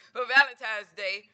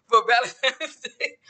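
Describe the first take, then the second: First: Said in the usual way. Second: Laughing through the correction; amused at her own mix-up, said slowly with a laugh. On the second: Real, not acted. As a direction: chuckle as you fix the slip.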